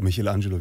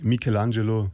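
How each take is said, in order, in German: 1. Der Name wird auf Deutsch ausgesprochen. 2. Der Name wird auf Italienisch ausgesprochen. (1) "aber ich sage Michelangelo, wir sind hier in Deutschland" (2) "Eigentlich Michelangelo"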